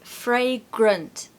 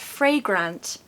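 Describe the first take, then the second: First: The second syllable has a reduced schwa vowel. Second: The second syllable has a full vowel. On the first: The speaker calls it right. "we have another important schwa sound here in the second syllable" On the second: The speaker calls it wrong. "so it's not fragrant, no"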